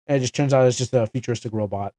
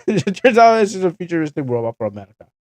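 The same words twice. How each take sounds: First: Said in the usual way. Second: Louder, higher and fast, still amused; gleeful repeat of the twist; amused punchline. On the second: Real, not acted. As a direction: land the joke with a grin. Repeated punchline after laughing.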